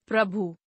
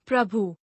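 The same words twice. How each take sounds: First: Said in the usual way. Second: प्रभु ending on long oo, "prabhoo"; mispronounced. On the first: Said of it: "शुद्ध". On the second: Shown as a demonstration. Teacher showing a u error, mispronounced with long final oo. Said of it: "अनशुद्ध".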